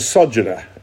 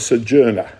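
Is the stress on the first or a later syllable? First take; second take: first; later. First: The stress is on the first syllable. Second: The stress is on a later syllable. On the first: The speaker calls it right. "put the emphasis on the first syllable. It's a sojourner" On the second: The speaker calls it wrong. "It's not a sojourner"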